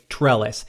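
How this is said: It is said with an American accent.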